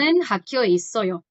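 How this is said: The voice falls at the end like a statement.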